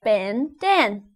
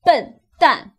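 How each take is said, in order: First: Ben Dan read as two English names. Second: Ben dan said loud with Mandarin vowels; Mandarin bendan. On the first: Learner wrongly reading Ben Dan as English names. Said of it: "how would you say that?". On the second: Teacher giving the correct Chinese ben dan, loud. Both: Shown as a demonstration.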